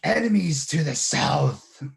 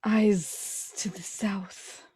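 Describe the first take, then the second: First: Loud slow growling shout; booming growly voice. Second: Hushed urgent hiss; hissed whisper. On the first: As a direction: boom it out like a magic herald. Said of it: "his best growly voice". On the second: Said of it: "I will kind of hiss up at him". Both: Acted.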